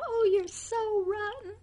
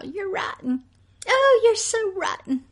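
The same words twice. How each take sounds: First: High, sweet sing-song scold; imitating a smiling mother calling her son rotten; said with a smile. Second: High, sugary mock scolding; imitating a smiling mother's sing-song "rotten"; mother with a smile. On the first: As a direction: coo the insult like a fond mother. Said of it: "It was said with a smile". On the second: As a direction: tease the child sweetly while insulting him. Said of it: "calling your son with a smile".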